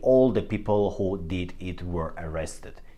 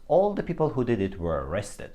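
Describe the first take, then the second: First: Each word is said separately and clearly. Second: The words run together with linked sounds. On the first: "he doesn't say" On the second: "He uses linking in his speech, and it sounds"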